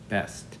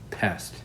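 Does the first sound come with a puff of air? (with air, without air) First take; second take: without air; with air. First: The first sound has little or no air. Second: The first sound has a strong puff of air. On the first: The speaker calls it wrong. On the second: The speaker calls it right.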